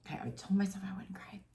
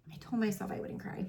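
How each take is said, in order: First: Tearful, fast, breathless whisper; choked whisper. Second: Crying, fast, breathy whisper; tearful whisper. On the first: To her viewers, admitting she promised herself not to cry, in a choked whisper. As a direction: whisper it through rising tears. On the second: Repeating to viewers that she would not cry, now crying softly. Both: Real, not acted. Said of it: "so I apologize for crying".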